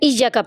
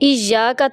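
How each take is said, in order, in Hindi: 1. y की आवाज़ एक है और छोटी है। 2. y की आवाज़ दोहरी करके रोकी जाती है। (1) "मुशद्दद हरूफ को मुख़फ़्फ़फ़ पढ़ देना" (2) "शद वाले हर्फ को"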